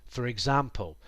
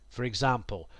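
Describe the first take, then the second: Both takes have the same delivery.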